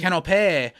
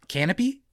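First: "Canopy" ending in -pay, like canapé, falling; corrected pronunciation. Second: "canopy" said like the bed canopy, ending in -pee, rising as a question; uncertain mispronunciation. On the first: Repeating the co-host's correction of the snack, "Canopy" ending in -pay. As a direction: say "Canopy" as can-uh-pay, settled and certain. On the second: Reading out the Vegemite snack, unsure how "canopy" is pronounced. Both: Real, not acted.

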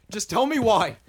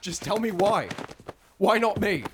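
First: Louder, higher, pushing harder; angry demand. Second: Demanding. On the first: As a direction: repeat it, more insistent. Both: Acted. Pressing her for an answer.

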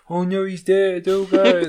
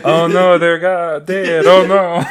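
First: Mock alarmed cry, raised a little, with a laugh; a hammed-up servant wailing that the master is dead; panicked ancient servant. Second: Hammed-up Egyptian accent, louder, the middle drawn out slowly; mock Egyptian accent. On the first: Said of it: "I don't know why they had that voice". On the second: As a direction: fake Egyptian accent wailing over the dead. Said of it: "Say that again in an Egyptian accent".

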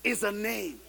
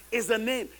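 Both takes have the same delivery.

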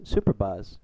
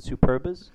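First: "Super Bas" as two words, full "bahz" ending; Super Bas pronunciation. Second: "Superbas" run together as one word, like "superb-us"; Superbas pronunciation. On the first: Host spelling out the old team name, "Super Bas" with a clear "bahz". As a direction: say "Super Bas" with an open, drawn "Bas". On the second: Host offering another reading of the team name, "Superbas" as one word. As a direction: say "Superbas" with a short, reduced last syllable. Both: Shown as a demonstration. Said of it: "depending on how you pronounce it".

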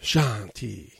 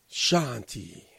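First: A calm, drawn-out "Shanti" in a lightly voiced wrestler impression; Jinder Mahal. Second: A softer, drawn-out "Shanti" in a light wrestler impression; Jinder Mahal. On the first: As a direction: intone "Shanti" peacefully, as if meditating. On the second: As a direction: let the second "Shanti" fade away gently. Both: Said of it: "as Jinder Mahal says".

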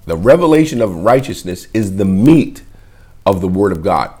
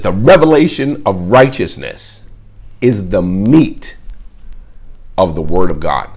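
First: Said in the usual way. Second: Solemn proclamation of the title; title announced. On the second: Shown as a demonstration. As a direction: announce "The Revelation of Righteousness is the Meat of the Word of God" like a headline, stretching "is the Meat". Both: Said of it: "I titled it".

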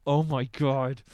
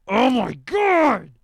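First: Low-pitched stunned "oh my god"; contained amazement. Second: High, loud, slow yell; exploding amazement. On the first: Host headbanging to the song, low awed exclamation. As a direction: hold the shock in, low and weighty. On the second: Host headbanging to the song, ecstatic drawn-out shout. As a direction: let it erupt, stretched out loud. Second exclamation, built to a yell. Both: Retold or imitated.

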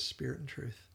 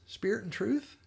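First: "Spirit and truth." soft and falling, as a confirmation; retold quiet confirmation. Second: "Spirit and truth?" lifted high at the end as a question; retold question. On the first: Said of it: "He says". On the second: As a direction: ask "Spirit and truth?" with a rising, checking tune. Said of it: "And she asks".

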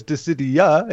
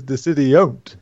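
First: Said in the usual way. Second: Slow "Dissidiont", ending run into one word; NT fused onto Dissidia. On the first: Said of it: "I think it was Dissidia". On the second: Shown as a demonstration. Host joking about the title, "Dissidiont" slowly as one word. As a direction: stretch "Dissidiont" with "ont" as its tail. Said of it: "I think it was Dissidia, is Dissidiont".

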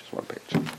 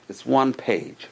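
First: Whispered aside. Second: Said in the usual way. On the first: Shown as a demonstration. Repeats phrase, then whispers it.

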